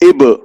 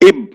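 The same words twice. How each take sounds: First: The final b bounces with an echoing release. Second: The final b is stopped with no release. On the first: The speaker calls it right. "टक्कर खाकर अलग हो जाए तब सही होगा" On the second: The speaker calls it wrong. "इब गलत"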